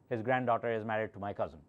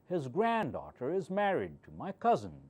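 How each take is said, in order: First: The pitch stays mostly level across the sentence. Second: The pitch moves up and down across the sentence. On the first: The speaker calls it wrong. "You do not say" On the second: The speaker calls it right. "See how I'm moving my voice up and down"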